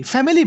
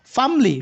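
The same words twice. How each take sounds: First: ফ্যামিলি in three syllables, "fe-mi-li"; unshortened form. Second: ফ্যামিলি in two syllables, "FAM-li"; syncope, i dropped. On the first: Teacher shows what isn't said, ফ্যামিলি as "fe-mi-li". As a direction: sound the middle i in ফ্যামিলি. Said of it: "ফ্যামিলি বলে না". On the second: Teacher models native usage for students, ফ্যামিলি as "famli". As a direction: drop the middle i in ফ্যামিলি: "famli". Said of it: "আয়ের উচ্চারণ বাদ দেওয়া হয়". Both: Shown as a demonstration.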